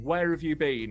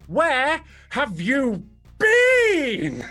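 First: It is said plainly, without exaggeration. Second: It is said with overdone, exaggerated intensity.

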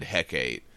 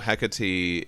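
First: The name is said the Shakespearean way. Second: The name is said the original Greek way. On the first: "When Shakespeare did Macbeth, he did Hecate" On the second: "the original pronunciation from Greek"

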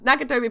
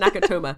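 First: The name ends with an 'ee' sound. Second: The name ends with an 'ah' sound. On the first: The speaker calls it right. "Nakatomi Plaza" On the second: The speaker calls it wrong. "I said Nakatoma"

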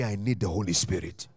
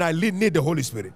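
First: It is said at normal volume. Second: It is said loudly.

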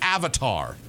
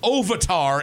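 First: The first vowel sounds like an 'a'. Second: The first vowel sounds like an 'o'. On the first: The speaker calls it right. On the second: The speaker calls it wrong.

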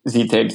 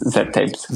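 First: The first letter is said as 'zee'. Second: The first letter is said as 'zed'. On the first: The speaker calls it wrong. "many Americans call it Z-tapes" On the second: The speaker calls it right. "even though it's Z-tapes"

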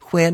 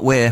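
First: The opening sound is breathy and aspirated. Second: The opening sound is a plain w. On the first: The speaker calls it right. "We say what like where. Where" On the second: The speaker calls it wrong. "not where"

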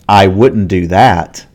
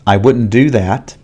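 First: The word 'that' gets extra stress. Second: No word gets any extra stress. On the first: The speaker would make a different choice from the other person. "We don't normally stress the word that, but in this case, I want to show that I would make a different decision" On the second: A plain statement with no contrast. "This is the normal pronunciation"

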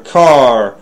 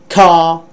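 First: The final r sound is pronounced. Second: The final r sound is dropped. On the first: "but in American English, it's there" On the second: "in British English, r sound doesn't appear that much at the end of words"

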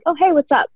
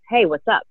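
First: The greeting sounds super friendly. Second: The greeting sounds more guarded, with a different pitch.

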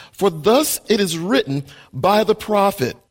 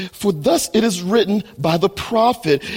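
No difference in how they are said.

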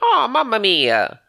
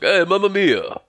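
First: It is a high-pitched, cute cartoon Mario voice. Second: It is a more realistic, grown man's Mario voice.

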